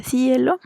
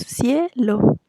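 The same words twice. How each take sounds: First: "cielo" split as cí-e-lo, stress on the i; "cielo" with a stressed, separate i; wrong stress on the i. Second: "cielo" in two beats, cie-lo, stress on the e; "cielo" as CIE, then lo; correct stress on e. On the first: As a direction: say "cielo" wrongly, leaning on the i as its own syllable. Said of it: "si no diría". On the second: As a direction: say "cielo" with ie glided together and a pause before lo. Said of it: "sin embargo decimos". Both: Shown as a demonstration.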